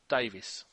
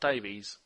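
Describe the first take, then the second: First: The name ends with a short 'is' sound. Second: The name ends with a long 'ees' sound. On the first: The speaker calls it right. "Notice I said Davis" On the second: The speaker calls it wrong. "and not Davies"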